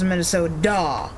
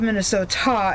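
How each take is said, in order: First: The middle consonant is softened into a D sound. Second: The middle consonant is a clear T sound. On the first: The speaker calls it wrong. "they make it a D" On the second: The speaker calls it right. "instead of Minnesota"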